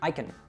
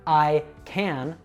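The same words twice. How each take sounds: First: The words run together with a weak vowel. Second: The two words are said separately with full vowel.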